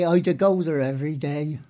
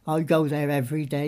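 First: Wiltshire dialect. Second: Said in the usual way. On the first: Shown as a demonstration. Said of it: "You say". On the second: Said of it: "you don't say".

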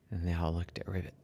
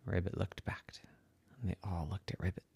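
First: Said in the usual way. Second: Soft whisper; suspense whisper. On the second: Acted. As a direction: hush it for suspense.

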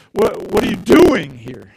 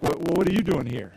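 First: Doing leaned on, slow and loud; stress on doing. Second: Soft, quiet "what are you doing here" with you stressed; a surprised look at an outsider; puzzled stare. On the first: Preacher to congregation, doing hit slow and loud. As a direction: push the word doing as a challenge. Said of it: "the last way is to". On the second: Stranger in a room, quietly puzzled at you. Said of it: "people are looking at you like". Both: Shown as a demonstration.

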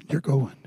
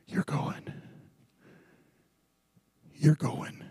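First: Said in the usual way. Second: Breathy whispered warning; ominous whispered reminder. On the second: Shown as a demonstration. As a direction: whisper it like a secret dread. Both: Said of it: "repeated for effect".

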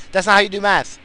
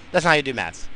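First: Loud insistence. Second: Said in the usual way. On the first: Real, not acted. Ranting about math.

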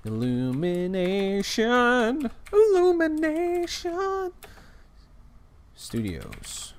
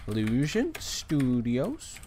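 First: "Illumination" drawn out slowly, high, stressed; corrected name. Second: "Illusion" said slowly in place of "Illumination"; slow "Illusion Studios", the wrong studio name. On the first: Shown as a demonstration. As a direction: slowly spell out "Illumination Studios". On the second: Real, not acted. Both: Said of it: "Why do I keep saying Illusion".

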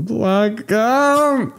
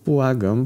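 First: Much higher, louder wailing Błagam, falling; wailing plea. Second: Higher rising plea; Błagam rising as a desperate plea; panicked begging. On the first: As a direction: break into a desperate wail on błagam. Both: A narrator's reading. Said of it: "zaczął jęczeć panicznie".

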